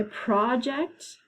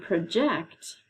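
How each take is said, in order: First: "project" as PRAH-ject, first syllable strong; stress on first syllable. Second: "project" as pruh-JECT, weak first syllable; stress on second syllable. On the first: Teacher repeating the homograph pair, "project" stressed PRAH-ject. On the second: Teacher repeating the homograph pair, "project" stressed pruh-JECT. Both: Shown as a demonstration. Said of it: "they're pronounced differently".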